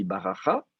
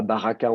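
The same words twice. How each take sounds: First: BARACHA with a throaty ch in the last syllable; soft kaf pronunciation. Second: BARAKA with a hard k in the last syllable; hard K pronunciation. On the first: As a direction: say "baracha" with a raspy fricative instead of k. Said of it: "le kaf se prononce re". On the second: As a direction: say "baraka" with a plosive k, not a throaty ch. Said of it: "on dit pas baraka". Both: Shown as a demonstration.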